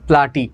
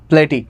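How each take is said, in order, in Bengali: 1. প্রথম স্বরধ্বনিটি একটি খোলা 'ah' ধ্বনি। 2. প্রথম স্বরধ্বনিটি একটি 'ay' ধ্বনি। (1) "প্লাটি বা প্লেটি উচ্চারণ করতে পারো" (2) "প্লাটি বা প্লেটি উচ্চারণ করতে পারো"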